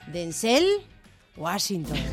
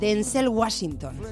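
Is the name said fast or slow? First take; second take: slow; fast. First: The name is said slowly and carefully. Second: The name is said quickly. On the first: "Lo has dicho despacito" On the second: "ahora dilo rápido"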